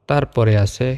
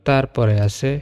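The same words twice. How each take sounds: The two takes are said the same way.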